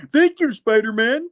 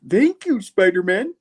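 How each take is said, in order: First: Put-on high, quavery old-man thanks. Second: Put-on high old-man thanks, echoed for a laugh; old man voice again. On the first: Retelling the comic, the nerd thanks Spidey in an old man's voice. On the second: Repeating the nerd's thanks to Spidey as an old man. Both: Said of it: "Kinda sounding like the old man".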